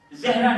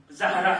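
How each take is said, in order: First: زہرا said as "Zehra", with an e after z; wrong pronunciation. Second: زہرا said as "Zahra", with an open a; careful "ZA-ha-ra" for زہرا; correct pronunciation. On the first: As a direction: say زہرا with the first vowel as "eh". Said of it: "زہرا نہیں ہے". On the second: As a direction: say زہرا with a short a after z, not e. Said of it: "اس کا صحیح pronunciation ہے". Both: Shown as a demonstration.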